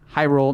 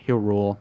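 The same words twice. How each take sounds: First: The first syllable sounds like high. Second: The first syllable sounds like hill. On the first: The speaker calls it right. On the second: The speaker calls it wrong.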